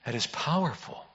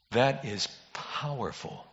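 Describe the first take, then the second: First: Much softer, leaning on "powerful"; hushed awe. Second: Slow, hushed and much softer; hushed awe. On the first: Pastor repeating to congregation, soft lean on "powerful". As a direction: press "powerful" gently in a hush. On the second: Pastor to congregation, slow hushed awe. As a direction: let it sink in, barely above a breath. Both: Real, not acted.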